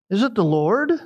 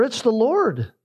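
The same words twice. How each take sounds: First: "Is it the Lord?" asked with a rise on "it" and up at the end; "Is it the Lord?" as a hesitant question, pitch rising to the end. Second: "It's the Lord." stated, falling firmly on "Lord"; "It's the Lord." as a sure declaration, pitch falling on "Lord"; certain statement. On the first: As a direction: wonder aloud, unsure. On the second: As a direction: announce it with certainty. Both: Shown as a demonstration.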